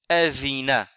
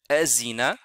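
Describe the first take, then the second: First: The middle consonant is a soft th sound. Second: The middle consonant is a buzzing z sound. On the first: The speaker calls it right. "et celui-là, c'est azina" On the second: The speaker calls it wrong. "ni azina"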